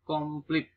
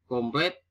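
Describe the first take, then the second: First: "komplit" with i in the last syllable; nonstandard pronunciation. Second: "Komplit" with e in the last syllable; standard pronunciation. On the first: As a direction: say kom-plit for "komplit", pitched up. (ucapkan "komplit" dengan i) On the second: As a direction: say "Komplit" as kom-plet. (ucapkan "Komplit" menjadi komplet) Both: Shown as a demonstration. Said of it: "bukan komplit".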